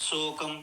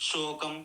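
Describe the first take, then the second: The two takes are said the same way.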